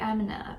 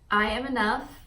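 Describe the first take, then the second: First: It is said offhandedly, without real conviction. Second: It is said earnestly, with real conviction. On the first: The speaker does not truly believe it. The speaker calls it wrong. "If you're just like" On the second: The speaker truly believes it. The speaker calls it right. "really say it with intention, like you really mean it and believe it"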